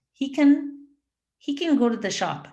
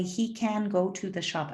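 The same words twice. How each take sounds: First: Can hit high and loud; a strong, full can up top; stress on can. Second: Can with its vowel weakened, quieter; a soft, unstressed can in an easy sentence; reduced can. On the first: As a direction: punch the word can. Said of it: "So that word gets stressed". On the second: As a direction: say can as a quick kn. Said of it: "eliminate that A sound". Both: Shown as a demonstration.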